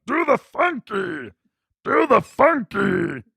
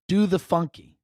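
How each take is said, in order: First: High, slow, garbled half-tongue voice; drawn-out tongueless mimicry, pitched up; Uncle Rick. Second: Said in the usual way. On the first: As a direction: holler it as if half your tongue is gone. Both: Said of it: "she was kinda talking like Uncle Rick".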